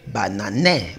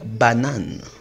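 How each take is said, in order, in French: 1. Le e final se prononce comme une syllabe. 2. Le e final est muet, deux syllabes. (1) "je ne vais pas lire banané" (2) "le E à la fin d'une syllabe ne se prononce pas"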